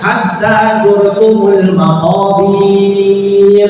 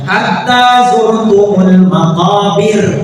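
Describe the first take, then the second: First: The short vowel is stretched long. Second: The short vowel is kept short.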